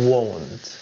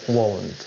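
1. La palabra se dice lento, sonido por sonido. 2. La palabra se dice rápido, de una sola vez.

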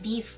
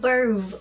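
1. คำนี้ออกเสียงด้วยเสียงแบบอังกฤษ 2. คำนี้ออกเสียงด้วยเสียงแบบฝรั่งเศส (1) "พอออกเสียงง่ายหน่อย" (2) "ออกเสียงขึ้นๆเงี้ยมันฝรั่งเศส"

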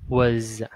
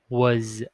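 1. Từ này kết thúc bằng âm z rõ ràng. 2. Từ này kết thúc bằng âm z rõ ràng.

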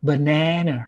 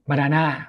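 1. พูดด้วยสำเนียงอเมริกัน 2. พูดด้วยสำเนียงไทย (1) "คนอเมริกา" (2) "ผมจะออกเสียงว่าบานาน่า"

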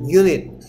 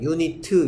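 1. 이 단어는 t 소리로 끝납니다. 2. 이 단어는 t 뒤에 모음이 붙어서 끝납니다. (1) "얘는 발음이 뭐야? 유닛" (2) "유니트 이렇게 발음하는 사람 없어"

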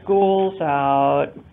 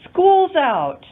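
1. พูดด้วยน้ำเสียงกังวลและเหนื่อยล้า 2. พูดด้วยน้ำเสียงตื่นเต้นและมีความสุข (1) "She's worried" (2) "The young girl is very excited"

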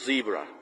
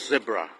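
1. คำว่า zebra ออกเสียงแบบสำเนียงอเมริกัน 2. คำว่า zebra ออกเสียงแบบสำเนียงอังกฤษ (1) "คนอเมริกันออกว่า" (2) "คนอังกฤษจะออกเสียงว่า"

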